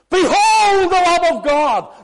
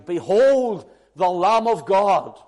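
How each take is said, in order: First: It is said with shock and amazement. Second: It is said in a calm, pleasant way.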